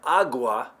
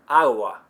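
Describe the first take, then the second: First: The g is a full, hard stop. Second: The g is very soft and light. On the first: The speaker calls it wrong. "If you've been saying agua" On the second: The speaker calls it right. "You're going to hear"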